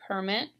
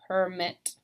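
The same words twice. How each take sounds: First: "permit" as the noun, PER-mit; "permit" with the weight up front; first-syllable stress. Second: "permit" as the verb, per-MIT; "permit" stressed on the second syllable; last-syllable stress. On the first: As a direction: hit the start of "permit": PER. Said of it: "in the noun column". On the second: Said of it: "but there is a difference". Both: Shown as a demonstration.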